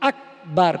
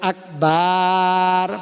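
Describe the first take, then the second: First: The second syllable's vowel is kept short. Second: The second syllable's vowel is drawn out long. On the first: It means great. The speaker calls it right. "কোনো টান নাই" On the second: It becomes the name of a vile animal. The speaker calls it wrong. "বার টান দেয়"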